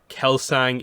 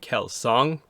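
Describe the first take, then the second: First: The name is said with an anglicized vowel. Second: The name is said with a traditional vowel.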